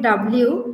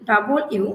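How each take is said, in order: First: The word double is squeezed into one quick blend. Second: Double and u are said fully as separate parts.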